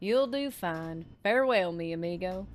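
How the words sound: It is said in a put-on accent. The speaker calls it right. "we tried to start with an accent"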